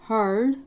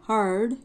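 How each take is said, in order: Both takes have the same delivery.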